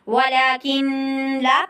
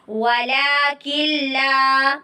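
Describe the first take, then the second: First: The n is kept separate before the l. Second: The n merges into the l, without nasal sound. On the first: The speaker calls it wrong. "ये पढ़ना गलत है" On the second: The speaker calls it right. "गुन्ना नहीं कर रहे हैं"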